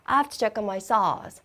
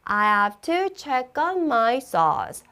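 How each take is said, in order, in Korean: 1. 이 문장은 빠르게 말했어요. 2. 이 문장은 보통 속도로 말했어요. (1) "빠르게" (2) "한 번 더"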